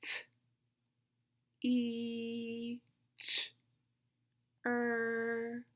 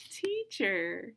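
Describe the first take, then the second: First: Isolated sounds with long pauses; super slow sounds. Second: Said in the usual way. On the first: Shown as a demonstration. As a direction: stretch "E" and "er", keep "T" and "ch" short. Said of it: "Listen again". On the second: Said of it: "What word is it?".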